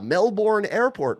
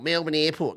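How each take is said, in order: First: Melbourne is said the way it is spelled. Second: Melbourne is said the local way. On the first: The speaker is a visitor to the city. The speaker calls it wrong. "don't say Melbourne" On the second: The speaker knows the city well. The speaker calls it right. "they know what they're doing"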